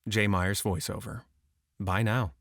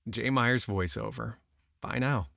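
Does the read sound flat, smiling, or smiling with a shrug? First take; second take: flat; smile and shrug. First: It is read dead flat and neutral. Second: It is read smiling, with a shrugging lift. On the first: "Number two was dead flat" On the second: "Number one was smile and shrug"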